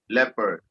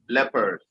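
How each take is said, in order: The two takes are said the same way.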